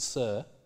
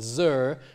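First: The first sound is a voiceless fricative. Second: The first sound is a voiced fricative. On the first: "rather than" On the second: "this voicing of initial fricatives"

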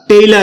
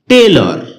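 First: The last syllable has an open 'ar' vowel. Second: The last syllable has a rounded 'or' vowel. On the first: The speaker calls it wrong. "এটাকে আমরা টেইলার বলে থাকি" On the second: The speaker calls it right. "যার সঠিক উচ্চারণ হচ্ছে টেইলর"

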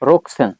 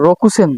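First: No vowel is heard between 'rok' and 'sen'. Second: A full 'u' vowel is said after 'rok'. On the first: The speaker calls it right. "এটার উচ্চারণ কি হবে? রোকসেন" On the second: The speaker calls it wrong. "এটার উচ্চারণ কিন্তু রোকুসেন না"

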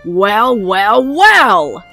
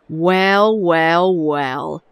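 First: It is said loudly, almost screamed. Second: It is said at a normal, quiet volume.

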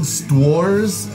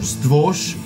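First: The name ends with an 'rs' sound. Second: The name ends with an 'sh' sound. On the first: The speaker calls it wrong. "I'm sick of mispronouncing this band's name" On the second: The speaker calls it right. "is pronounced in Polish Stwosh"

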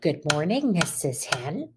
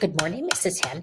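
First: It is said at a medium pace. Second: It is said very fast.

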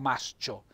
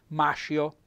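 First: An s sound is followed by a separate ch. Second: The s and c merge into one sh sound. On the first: The speaker calls it right. "S, linetta C" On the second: The speaker calls it wrong. "per evitare di leggere mascio"

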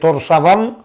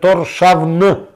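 First: The name ends with an extra vowel: 'avan'. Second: The name ends without a vowel: 'avn'. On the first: The speaker calls it wrong. "не е Торшаван" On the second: The speaker calls it right. "него е Торшавн"

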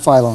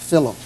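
First: The name does not rhyme with pillow. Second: The name rhymes with pillow. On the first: The speaker calls it wrong. "But not Philo" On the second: The speaker calls it right. "that rhymes with pillow"

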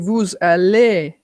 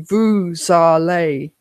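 First: It is said with a natural French melody. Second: It is said with an English-sounding melody. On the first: The speaker calls it right. "I say vous allez" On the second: The speaker calls it wrong. "non-phonetics say vous allez, and you'd sound like an idiot"

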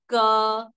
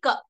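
First: The consonant ends with an 'a' vowel. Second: The consonant is said without a following vowel. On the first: The speaker calls it right. "we say ka" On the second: The speaker calls it wrong. "we don't say ka"

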